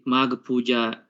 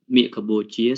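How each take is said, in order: First: The term is pronounced in an international style. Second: The term is pronounced in a Khmer style. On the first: "the international style" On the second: "let me say it in Khmer"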